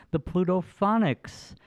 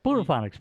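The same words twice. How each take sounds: First: Careful pronunciation. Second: Said fast. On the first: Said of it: "saying it the right way". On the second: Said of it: "Say it five times fast". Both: Shown as a demonstration.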